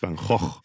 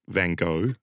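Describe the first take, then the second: First: The name is said with a Dutch pronunciation. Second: The name is said with an English pronunciation. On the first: The speaker calls it right. "you Dutch, you should know it's Van Gogh" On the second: The speaker calls it wrong. "Not Van Gogh"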